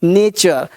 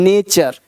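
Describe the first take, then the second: First: The middle consonant is a 'ch' sound. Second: The middle consonant is a 'ch' sound.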